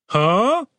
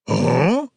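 First: High, rising huh; baffled underling, pitched up; puzzled guard. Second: Dazed, questioning grunt; confused, half-awake huh; groggy. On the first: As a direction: question it in a higher voice. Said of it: "said one of the subordinate guards". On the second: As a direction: grunt it as if just coming around. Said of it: "only just coming around". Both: A narrator's reading.

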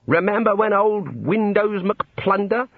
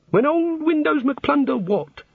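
First: Slow, higher-pitched mimicry of an old boy; old wizard reminiscing. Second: Very high, slow puzzled echo; baffled god. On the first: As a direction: relish the memory, mimicking a boastful old wizard. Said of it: "They say things like". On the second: A narrator's reading. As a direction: repeat it as a bewildered god, pitched way up.

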